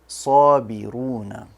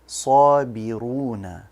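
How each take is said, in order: No difference in how they are said.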